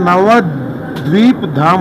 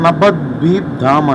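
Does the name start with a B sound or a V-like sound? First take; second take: V sound; B sound. First: The name is said with a V sound. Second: The name is said with a B sound. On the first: This is how the speaker's own community says it. "మనం ఏమంటామంటే నవద్వీప్ ధామ్ అంటాము" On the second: This is how Bengali speakers say it. "ఈ Bengalis వీని కూడా బీ లాగా pronounce చేస్తారు"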